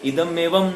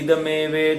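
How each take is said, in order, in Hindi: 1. दोनों शब्द एक विराम के साथ अलग-अलग बोले जाते हैं। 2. दोनों शब्द बिना किसी विराम के जुड़े हुए बोले जाते हैं।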